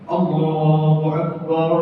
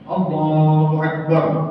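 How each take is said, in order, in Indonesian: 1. Vokal pada 'bar' dipanjangkan. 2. Vokal pada 'bar' pendek dan terpotong. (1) "barunya kepanjangan" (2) "Mestinya begitu"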